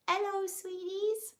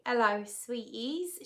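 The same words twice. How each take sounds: First: Put-on much higher and slow, a failed try at her accent; Hillary impression attempt. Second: Said in the usual way. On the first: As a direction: pitch it way up and slow it down, imitating her. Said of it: "but she probably goes". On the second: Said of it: "she says".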